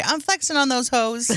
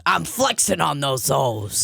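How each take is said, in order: First: Lightly voiced dad boast; casual take-off of dad; imitating dad's catchphrase. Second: Slow, drawn-out dad catchphrase; slower take-off of the dad's boast; dad imitation. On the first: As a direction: quote dad's line with a touch of swagger. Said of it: "he would always say". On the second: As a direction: lightly put on dad's voice, stretching the words. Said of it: "sounds a little more like this".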